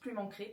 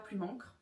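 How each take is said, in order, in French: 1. Le nom se termine sur une voyelle 'ay'. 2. Le nom se termine sur un son consonne. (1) "Ça se prononce Plume Encrée parce qu'il y a deux E à la fin" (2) "ça se prononce pas Plume Encre"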